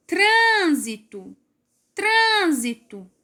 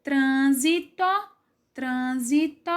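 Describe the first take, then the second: First: TRÂN high and drawn out in trânsito; stressed first syllable. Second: Trânsito in even parts, trân-si-to, rising at the end; syllable by syllable. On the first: Teacher demonstrating the strong syllable of trânsito, first syllable stressed. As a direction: stretch "trân" in trânsito, then fall away. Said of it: "A sílaba mais forte é o trân". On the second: Teacher separating trânsito into parts, syllable by syllable. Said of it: "forem separar a sílaba". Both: Shown as a demonstration.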